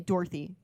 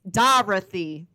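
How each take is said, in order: First: The name is said in a plain everyday accent. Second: The name is said in an East Coast accent. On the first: "you don't say Dorothy" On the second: "They literally always say Dorothy. ... Because they're all East Coasters"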